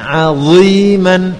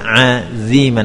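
First: Ain is thin and dha is thick. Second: The dha is pronounced thin like dhal. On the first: The speaker calls it right. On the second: The speaker calls it wrong. "ainnya tepat dibaca dengan tipis aziman, namun dha-nya dibaca ... seperti huruf dzal"

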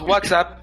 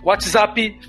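First: The words end on consonants with no added vowel. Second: Extra vowels are added after the final consonants.

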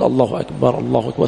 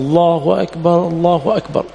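First: The phrase is said in a low, quiet voice. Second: The phrase is said in a raised, loud voice. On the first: "يخفض صوته" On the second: "ويرفع صوته"

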